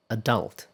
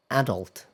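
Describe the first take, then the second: First: Adult stressed on the second syllable; American stress. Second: Adult stressed on the first syllable; British stress. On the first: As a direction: say adult as "uh-DULT". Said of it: "stress on the second syllable". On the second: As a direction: say adult as "AD-ult". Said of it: "stress on the first syllable". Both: Shown as a demonstration.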